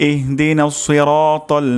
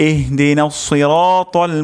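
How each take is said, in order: No difference in how they are said.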